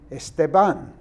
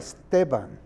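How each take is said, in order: First: The stress is not on the second-to-last syllable. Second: The stress is on the second-to-last syllable. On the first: The speaker calls it wrong. "I hear people on television ... saying" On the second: The speaker calls it right. "next to last syllable that is emphasized"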